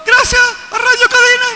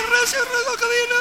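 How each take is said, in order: First: Very high, loud metallic call. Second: Very high and much softer echo; faint echo. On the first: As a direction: call it out across the mountains. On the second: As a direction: answer faintly like a distant echo. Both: Shown as a demonstration. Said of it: "El eco de una montaña".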